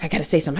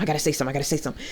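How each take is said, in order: First: Under-the-breath, anxious mutter; quietly psyching herself up to speak. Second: Very fast, much softer repeated mutter; rapid muttering. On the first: Nervous group member muttering to herself, quiet mutter. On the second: Anxious member rushing to herself before speaking, rapid soft mutter. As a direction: rattle it off under your breath. Anxious self-talk in therapy group. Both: Retold or imitated.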